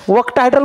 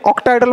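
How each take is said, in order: First: The word begins with a 'wo' sound. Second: The word begins with a plain 'o' sound. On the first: The speaker calls it wrong. "वक्टायड्रल म्हणायचं नाही" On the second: The speaker calls it right. "ऑक्टायड्रल म्हणायचं"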